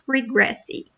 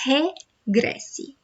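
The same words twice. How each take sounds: First: The first R sounds like an English R. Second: The first R sounds like an English H. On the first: The speaker calls it wrong. "it's not regresse" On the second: The speaker calls it right. "the letter R at the beginning of a word sounds like h"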